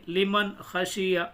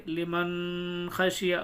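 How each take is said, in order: First: لمن خشیہ with the noon of لمن said out clearly; نون ظاہر کر کے لمن خشیہ; clear izhar reading. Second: لمن خشیہ with the noon hidden in the nose, slow and drawn out; غلط طریقہ، نون چھپا کے لمن خشیہ; wrong hidden reading. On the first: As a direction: sound the n of لمن plainly before خشیہ. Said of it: "نون کو ظاہر کر کے پڑھیں گے". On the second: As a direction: demonstrate the mistaken nasal لمن خشیہ. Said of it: "اور چھپا کے پڑھتے تو کیسے پڑھتے؟". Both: Shown as a demonstration.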